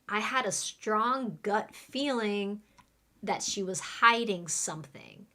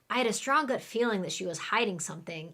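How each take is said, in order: First: It is said at a normal speed. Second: It is said very fast.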